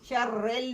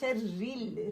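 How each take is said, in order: First: The last vowel is an open 'e' sound. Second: The last vowel is a close 'i' sound. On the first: The speaker calls it wrong. "शर्रेल नहीं करना" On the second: The speaker calls it right. "शर्रिल री क्लियर करना है"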